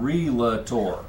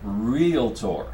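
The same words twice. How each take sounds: First: The word is said with three syllables. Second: The word is said with two syllables. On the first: The speaker calls it wrong. "It's not realtor" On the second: The speaker calls it right. "Two syllables"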